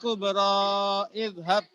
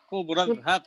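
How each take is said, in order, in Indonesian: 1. Huruf panjang dan kata berikutnya tetap terpisah. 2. Kedua kata langsung menyambung. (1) "jadi bukan bukan" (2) "Tapi langsung"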